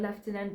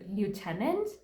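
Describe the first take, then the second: First: The word is said with a non-American pronunciation. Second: The word is said with the American pronunciation. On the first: "I grew up saying the word lieutenant" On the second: "the Americans pronounce it as lieutenant"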